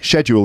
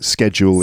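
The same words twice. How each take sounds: First: The word begins with an sh sound. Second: The word begins with an sk sound. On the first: This is the British pronunciation. "schedule in Britain" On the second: This is the American pronunciation. "in American English"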